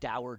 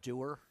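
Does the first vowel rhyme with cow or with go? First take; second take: cow; go. First: The first vowel rhymes with cow. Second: The first vowel rhymes with go. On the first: The speaker calls it wrong. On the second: The speaker calls it right.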